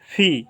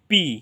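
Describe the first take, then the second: First: The first consonant has a puff of air. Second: The first consonant has no puff of air. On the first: The speaker calls it right. "বাতাস বের হয়ে যাবে মুখ দিয়ে" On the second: The speaker calls it wrong. "এতদিন আমরা জেনে এসেছি এটা হচ্ছে পি"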